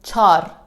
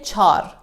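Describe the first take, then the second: First: The word is said with one syllable. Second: The same.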